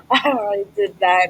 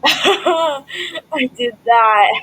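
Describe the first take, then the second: First: Said in the usual way. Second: Laughing. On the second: Real, not acted. Proud laughing replay of own move.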